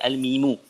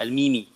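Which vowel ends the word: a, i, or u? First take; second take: u; i. First: The word ends with a u vowel. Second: The word ends with an i vowel. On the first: The speaker calls it right. "Sebab tu dibaca al-mimu" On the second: The speaker calls it wrong. "tidak baca al-mimi"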